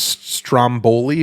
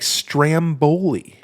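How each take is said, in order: First: The first vowel is an 'ah' sound. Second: The first vowel is an 'a' as in 'ram'.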